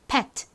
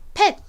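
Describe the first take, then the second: First: It is said slowly with the final t released. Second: It is said fast with the final t nearly silent. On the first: "또박또박 천천히 발음할 때에는 이 t가 가진 트 소리가 살짝 들어갑니다" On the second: "빨리 발음할 때는 끝에 it 소리가 거의 안 들려서 그냥 pet 요렇게"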